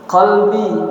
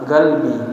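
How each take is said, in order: First: The word starts with a deep q sound. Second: The word starts with a hard g sound.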